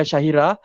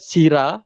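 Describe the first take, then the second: First: It is said with three syllables, shahira. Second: It is said as two syllables, sira. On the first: "bukan Syahira" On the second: "Bukan Sira"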